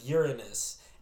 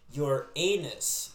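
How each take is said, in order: First: The name does not sound like 'your anus'. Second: The name sounds like the phrase 'your anus'. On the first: "instead of Uranus" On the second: "a lot of people pronounce it your anus"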